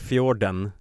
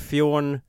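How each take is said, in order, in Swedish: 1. Namnet uttalas fullt ut, som Fjorden. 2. Namnet uttalas kort, som Fjorn. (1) "om man läser bokstav för bokstav, ser det ut som han heter Fjorden" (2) "någon norsk uttalsregel Fjorden? Som gör det Fjorn"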